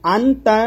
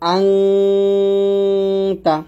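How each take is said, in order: First: The n is pronounced clearly and briefly. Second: The n is nasalized and held long. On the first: The speaker calls it wrong. "আনতা না পড়ে" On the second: The speaker calls it right. "নাকের পাশে নিয়ে গুণনা আদায় করে পড়তে হবে"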